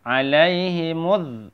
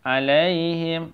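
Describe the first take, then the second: First: "Alaihimuz" slowly, mu closed on a held z; joined form. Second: "Alaihim" slowly, ending on a closed m; standalone form. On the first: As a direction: chant "Alaihimuz" and lean on the buzzing z. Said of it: "Kalau kita sambung dengan huruf za". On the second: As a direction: chant "Alaihim" with a drawn-out ai. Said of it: "Ini gampang ya". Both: Shown as a demonstration.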